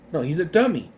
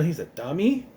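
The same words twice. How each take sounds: First: "dummy" leaned on, falling, to correct the mishearing; stress on dummy. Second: Said in the usual way. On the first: Shown as a demonstration. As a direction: correct them by pressing the word "dummy".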